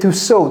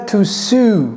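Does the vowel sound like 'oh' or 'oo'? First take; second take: oh; oo. First: The vowel is an 'oh' sound. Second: The vowel is an 'oo' sound. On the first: The speaker calls it right. "C'est to sow" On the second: The speaker calls it wrong. "Ce n'est pas to sue"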